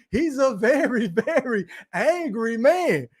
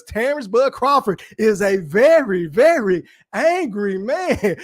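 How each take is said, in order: First: Slow repeat broken by a laugh; laughing quote. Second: Very slow, deliberate drawn-out delivery; slow TV quote. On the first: Streamer repeating the Martin line to chat, laughing. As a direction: say it slowly, cracking up midway. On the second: Streamer quoting Martin about Crawford, slow mock gravity. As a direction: stretch it out like a famous sitcom line. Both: Retold or imitated. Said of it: "Y'all remember that shit on Martin?".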